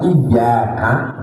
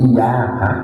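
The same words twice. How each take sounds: First: The y sound is held and doubled. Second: The y sound is short and single. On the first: It means 'you' addressed to God. The speaker calls it right. "lafaz iyyaka" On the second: It means sunlight. The speaker calls it wrong. "nggak pakai tasdid menjadi iyyaka"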